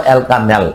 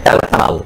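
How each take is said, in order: First: অ্যালকানেল ending in front-vowel 'nel'; অ্যালকানেল, front-vowel variant; pronounced with -নেল. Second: অ্যালকানাল ending in open 'naal'; অ্যালকানাল, back-vowel variant; pronounced with -নাল. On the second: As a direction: say অ্যালকানাল with a long 'aa' at the end. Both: Shown as a demonstration. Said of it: "উচ্চারণের বিষয় আছে".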